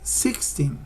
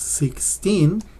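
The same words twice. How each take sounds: First: The ending of the word goes down. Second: The ending of the word goes up. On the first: "So it goes down a little bit" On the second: "the teen goes up a little bit"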